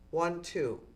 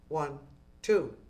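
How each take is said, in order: First: The count is said quickly. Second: The count is said slowly. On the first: The speaker calls it wrong. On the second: The speaker calls it right.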